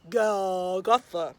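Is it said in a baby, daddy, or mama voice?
daddy. It is said in a deep daddy voice.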